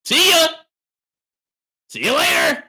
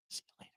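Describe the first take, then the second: First: High, loud dismissive shout; hollered send-off. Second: Very soft, barely voiced; hushed send-off. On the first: Streamer dismissing a complaining viewer, hollering. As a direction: holler them out of the room. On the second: Streamer quietly dismissing a viewer, hushed. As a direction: drop the goodbye to almost nothing. Dismissal dropped to near silence. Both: Real, not acted.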